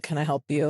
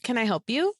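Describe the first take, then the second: First: Flat, bored "Can I help you?". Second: "Can I help you?" sung up high, sugary and fake; saccharine. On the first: Retold or imitated. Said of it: "flatly says". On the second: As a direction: sweeten "Can I help you?" until it is cloying, rising high. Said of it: "goes in a really saccharine kind of like".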